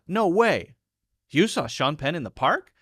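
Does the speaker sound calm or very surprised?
very surprised. It breaks after no way and ends questioning. The speaker can hardly believe it happened. "there I'm really surprised"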